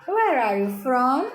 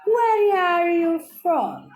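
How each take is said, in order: First: Said in the usual way. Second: Slow, high, carefully spaced Where are you from; model question for repeating. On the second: Shown as a demonstration. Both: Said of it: "Eu vou falar e vocês vão repetir".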